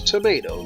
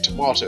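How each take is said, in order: First: The word has an American pronunciation. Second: The word has a British pronunciation. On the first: "I'm just going along saying tomato" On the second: "that's how British people pronounce it"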